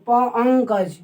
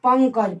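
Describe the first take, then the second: First: पंकज broken up as pa, ang-kaj; प-, अंकज in separated parts, ng held; ng sound isolated. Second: Said in the usual way. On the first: Shown as a demonstration. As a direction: split off the प, then sound out अंकज with ng. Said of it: "इसमें उच्चारण हो रहा है अंग का". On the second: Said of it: "हम लोग को लगता है कि इसमें न है".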